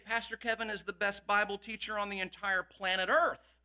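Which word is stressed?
Earth. The word Earth is stressed.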